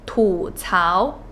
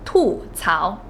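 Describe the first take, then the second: First: The first syllable has a non-falling tone. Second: The first syllable has a falling fourth tone. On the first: The speaker calls it right. "this word is pronounced" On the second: The speaker calls it wrong. "instead of"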